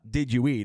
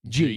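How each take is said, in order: First: All three words are pronounced separately. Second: The words are squeezed into one syllable. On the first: "It's not did you eat" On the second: "it's Jeet"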